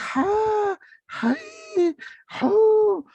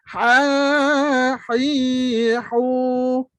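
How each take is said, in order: First: The syllables are airy with lots of breath. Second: The syllables are clearly voiced with little breath. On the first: The speaker calls it wrong. "dia bukan bunyi udara. Dia bukan bunyi ha, hai, hu. Itu kalau itu saya buat gitu, saya pun semput juga" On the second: The speaker calls it right. "dia sebenarnya bunyi suara dia. Ah, bunyi ha dia cuma sikit je"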